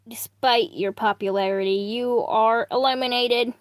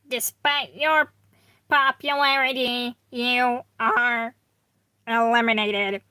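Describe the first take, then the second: First: It is said in a plain, normal voice. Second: It is said in a put-on character voice.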